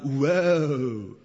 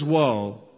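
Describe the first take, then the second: First: It is said in a San Fernando Valley accent. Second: It is said plainly and seriously.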